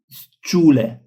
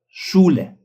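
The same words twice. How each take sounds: First: The word begins with an 's' sound. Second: The word begins with an 'sh' sound. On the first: The speaker calls it wrong. "not Schule" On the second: The speaker calls it right. "but Schule"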